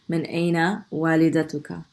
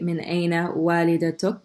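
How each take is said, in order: First: The last word ends with a short vowel. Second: The last word ends on a bare consonant.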